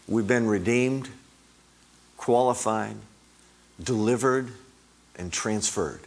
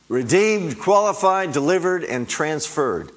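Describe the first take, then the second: First: Said in the usual way. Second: Higher and louder, each word hammered out; fervent loud preacher's list; rising preached cry. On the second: Real, not acted. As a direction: proclaim each word like a victory shout, easing on the last. Same list repeated, preached with force.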